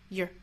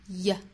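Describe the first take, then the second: First: A short weak vowel followed by a curled r. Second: A short weak vowel with no r sound. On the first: "美音的话读成 yer" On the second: "弱读的话呢英音会读成 y"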